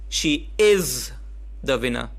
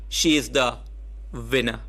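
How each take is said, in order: First: The word is carries the emphasis. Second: The word winner carries the emphasis.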